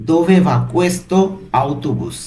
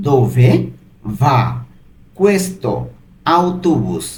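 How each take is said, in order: First: Said in the usual way. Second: "Dove va questo autobus?" split into single words with long pauses between them. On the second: Shown as a demonstration. Teacher breaks the Italian question into words for learners, slow and separated. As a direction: spell the question out slowly, one word at a time. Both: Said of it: "এর Italian কি হবে?".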